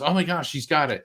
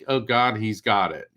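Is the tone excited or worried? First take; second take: excited; worried. First: It sounds excited and delighted. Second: It sounds worried and dismayed.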